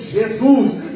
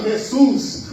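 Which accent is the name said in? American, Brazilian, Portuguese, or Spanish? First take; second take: Brazilian; Spanish. First: It is said with a Brazilian Portuguese accent. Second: It is said with a Spanish accent. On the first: "nós brasileiros dizemos" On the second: "os espanhóis"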